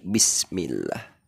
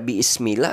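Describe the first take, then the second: First: No extra vowel sounds; it runs straight into 'smillah'. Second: An extra 'i' vowel sounds before 'smillah'. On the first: The speaker calls it right. "akan tapi" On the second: The speaker calls it wrong. "bukan dibaca"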